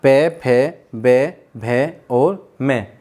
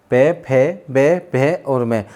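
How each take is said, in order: First: "पे, फे, बे, भे और मैं" slowed toward the end; lip-sound drill. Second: "पे, फे, बे, भे और मैं" said again slowly; repeated lip drill. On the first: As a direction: recite "पे फे बे भे मैं" clearly. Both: Shown as a demonstration. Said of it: "अब देखते हैं हम ओष्ठ".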